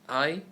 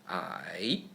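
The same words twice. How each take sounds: First: The pitch stays high and level. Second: The pitch dips down then rises. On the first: "I is also the first tone in Chinese" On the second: "I is almost the same as the third tone in Chinese"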